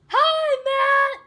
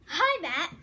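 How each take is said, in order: First: It is said very loudly, projected. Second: It is said at a quieter volume.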